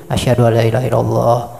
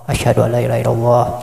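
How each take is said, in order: Both takes have the same delivery.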